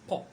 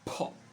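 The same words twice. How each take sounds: First: The p is released with no puff of air. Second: The p is released with a puff of air. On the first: "Différent de" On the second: "il faut qu'il y ait de l'air qui sorte de votre bouche"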